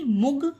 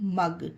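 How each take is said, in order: First: The vowel sounds like oo in put. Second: The vowel sounds like uh in cup. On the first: The speaker calls it wrong. "मुग नहीं" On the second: The speaker calls it right. "नहीं मग"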